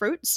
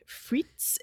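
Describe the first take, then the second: First: The name is said with an English pronunciation. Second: The name is said with a French pronunciation. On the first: "like in English" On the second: "like Fritz in French"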